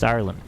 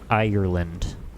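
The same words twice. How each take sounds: First: The word is said with two syllables. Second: The word is said with three syllables. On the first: The speaker calls it right. "bring it down to two" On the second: The speaker calls it wrong. "Ireland with three syllables"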